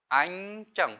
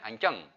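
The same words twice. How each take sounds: First: The word is said at a normal, careful speed. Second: The word is said quickly.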